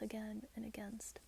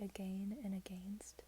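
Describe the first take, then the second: First: The words are not pronounced the way they're spelled. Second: The words are pronounced the way they are spelled. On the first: This is how others say it. The speaker calls it right. "no, it's pronounced again and against" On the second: This is the speaker's former pronunciation. The speaker calls it wrong. "I used to say again and against ... that's how it's spelled"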